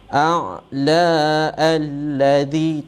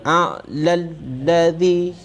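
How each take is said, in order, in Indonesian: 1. Vokal yang mengawali alladhi dibaca terpisah. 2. Vokal yang mengawali alladhi dihilangkan dan disambung. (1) "tak boleh a'la alladhi, tak boleh" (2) "Bila sambung mesti a'lal ladhi"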